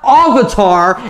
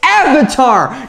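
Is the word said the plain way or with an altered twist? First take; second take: twisted; plain. First: The word has altered, fancier-sounding vowel sounds. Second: The word has its plain, familiar vowel sounds. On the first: The speaker calls it wrong. "not Avatar... a little twist on the way you pronounce it" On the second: The speaker calls it right. "It's Avatar"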